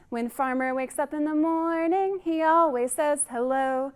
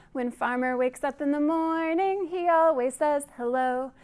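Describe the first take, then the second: No difference in how they are said.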